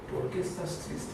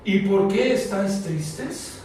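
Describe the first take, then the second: First: Much softer, almost breathed; soft tender repeat of the question; soft, tender echo. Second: Said in the usual way. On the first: Acted. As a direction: ask it gently, as if to one sad person.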